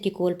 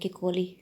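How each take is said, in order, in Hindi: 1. नाम व्यंजन l पर खत्म होता है। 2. नाम लंबी ee स्वर पर खत्म होता है। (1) "मैं ऐसे किकोल पढ़ती हूँ" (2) "जो इंग्लिश एक्सेंट रखने वाले लोग हैं, किकोली भी कहते हैं"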